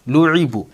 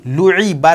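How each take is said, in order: First: "लुईबू" ending in a u sound; correct reading demo. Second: "लुईबा" ending in an a sound; wrong reading demo. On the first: Teacher giving the correct joined reading, "लुईबू" with final u. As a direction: finish "लुईबू" on a long "बू". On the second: Teacher showing what not to read now, "लुईबा" with final a. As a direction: finish "लुईबा" on "बा" in place of "बू". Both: Shown as a demonstration. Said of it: "लुईबा नहीं पढ़ेंगे अब".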